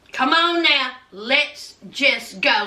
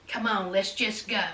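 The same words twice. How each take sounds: First: Measured, word-by-word insistence; slow, firm urging. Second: Low, hushed urging; quiet coaxing. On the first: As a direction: repeat it slowly and firmly in full voice. Retold urging repeated slower, firmer. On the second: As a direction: coax softly, deep under the voice. Retold coaxing, first take soft. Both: Retold or imitated.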